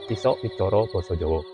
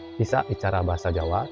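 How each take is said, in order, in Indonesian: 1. Vokal pada dua kata pertama terdengar seperti o. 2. Vokal pada dua kata pertama terdengar seperti a. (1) "sebenarnya dilafalkan"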